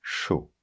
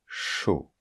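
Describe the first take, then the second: First: Chaud chuchoté, ch doux et long; whispered correct word. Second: Chaud chuchoté, ch bien soufflé; whispered demo word. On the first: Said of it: "c'est pas chaud, hein". (chaud chuchoté avec un ch doux et long) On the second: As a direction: whisper chaud, stretching the ch sound. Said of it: "par exemple, chaud. Ok?". (chaud chuchoté, le ch bien appuyé) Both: Shown as a demonstration.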